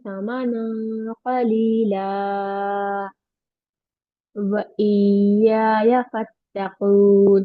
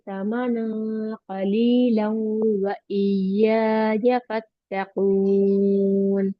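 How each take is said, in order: First: There is a stop after 'qalila'. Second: 'Qalila' runs straight into 'wa' without stopping. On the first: "तो यहाँ मैंने स्टॉप किया" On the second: "इस बार हम इसको कंटिन्यूअसली पढ़ेंगे"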